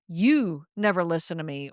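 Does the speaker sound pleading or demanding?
demanding. It sounds demanding, stressing another word.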